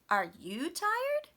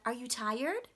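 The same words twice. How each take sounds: First: The strongest stress falls on the word you. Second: The strongest stress falls on the word tired. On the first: The same question is given back to the other person. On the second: The speaker is asking a new question.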